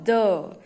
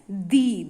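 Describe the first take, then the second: First: The word ends in a short, weak 'uh' vowel. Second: The word ends in a long 'ee' vowel. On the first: It comes before a word starting with a consonant sound. "m sound is a consonant sound, so we call the" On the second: It comes before a word starting with a vowel sound. "a vowel sound, so we uh, pronounce it as the"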